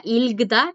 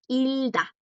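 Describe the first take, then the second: First: "Ilgda" with the G sounded before the D; sounded G, mispronounced. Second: "Hilda" slow, the G left silent; silent G, correct. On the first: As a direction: say "Ilgda" wrongly, voicing every consonant. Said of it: "No se pronuncia Ilgda". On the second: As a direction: say "Hilda" slowly, L straight into D. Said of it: "No se pronuncia Ilgda, es Hilda". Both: Shown as a demonstration.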